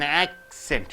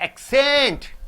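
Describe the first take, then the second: First: The stress is on the first syllable. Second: The stress is on the second syllable. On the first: It is used as a noun. "You are stressing on ac" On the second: It is used as a verb. "you have to stress scent to accent"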